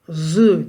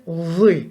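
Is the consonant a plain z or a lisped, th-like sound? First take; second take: plain; lisped. First: The consonant is a plain z sound. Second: The consonant is lisped, like a voiced th. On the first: The speaker calls it wrong. "Zı değil" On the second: The speaker calls it right. "Zı harfi peltektir"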